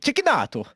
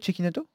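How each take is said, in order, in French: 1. Le nom est prononcé avec un accent italien. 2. Le nom est prononcé avec un accent français.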